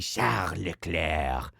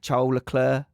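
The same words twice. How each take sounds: First: The name is said with a French accent. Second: The name is said with an English accent. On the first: "why don't you say Charles Leclerc?" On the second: "can I say it in an English accent?"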